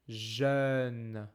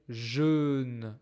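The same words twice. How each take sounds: First: The vowel is an open, rounded eu sound. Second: The vowel is a closed, rounded eu sound. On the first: The speaker calls it right. "I say jeune" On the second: The speaker calls it wrong. "I don't say jeune"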